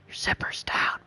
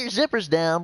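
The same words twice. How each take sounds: First: It is whispered quietly. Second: It is shouted loudly. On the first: Only the listener is meant to hear it. The speaker calls it right. "the guy that whispers it to you" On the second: Everyone nearby is meant to hear it. The speaker calls it wrong. "your one buddy will scream it out in front of the whole whole bus"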